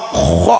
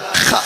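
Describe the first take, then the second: First: The letter is said with a rounded vowel. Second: The letter is said with an open vowel. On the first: The speaker calls it right. "kudu kho kudu kitu" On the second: The speaker calls it wrong. "ulah kha"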